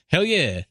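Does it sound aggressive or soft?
soft. It is said softly.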